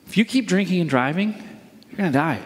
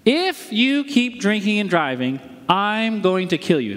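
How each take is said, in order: First: Brisk, matter-of-fact warning. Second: Deliberate, menacing demonstration; threat. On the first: Pastor illustrating a warning to the congregation, cautioning. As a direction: caution them plainly, without menace. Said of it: "Here's a warning". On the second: Pastor illustrating a threat to the congregation, threatening. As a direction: spell it out as a personal threat. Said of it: "That would be a threat". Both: Shown as a demonstration.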